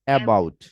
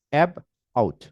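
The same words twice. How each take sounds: First: Said in the usual way. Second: অ্যাব and আউট said as two separate chunks with a pause between; syllable-by-syllable অ্যাব, আউট; syllables split apart. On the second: Shown as a demonstration. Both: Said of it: "okay?".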